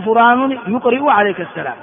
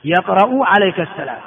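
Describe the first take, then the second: First: يقرئ said as yuqri'u, with u-vowel on ya and i-vowel before the hamza; teacher quoting the common error يقرئ; wrong form. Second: يقرأ said as yaqra'u, with open ya and a-vowel before the hamza; teacher's correct reading of يقرأ; correct form. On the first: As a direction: show the mistaken verb يقرئ, yuqri'u. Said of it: "ولا تقل". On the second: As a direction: model the right verb يقرأ, yaqra'u. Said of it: "وإنما الصواب يقرأ". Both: Shown as a demonstration.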